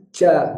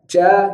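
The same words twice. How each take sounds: First: The consonant is a hissy ch sound. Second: The consonant is a hissy ch sound.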